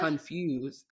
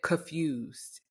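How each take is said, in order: First: The N sound in the word is clearly pronounced. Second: The N sound in the word is left out.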